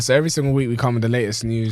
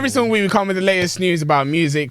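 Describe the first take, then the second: First: It is said in a tired, low-energy voice. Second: It is said with more energy and liveliness.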